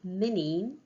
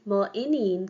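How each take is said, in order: First: The vowel of mo is dropped before the noun. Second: The vowel of mo is kept before the noun. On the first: The speaker calls it right. "it should be mineen" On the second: The speaker calls it wrong. "that's incorrect"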